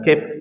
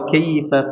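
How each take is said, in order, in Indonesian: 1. Kata ini berakhir terputus pada konsonan terakhir. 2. Kata ini berakhir dengan vokal penuh di akhir. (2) "Jadi dalam Al-Quran tidak boleh seperti itu"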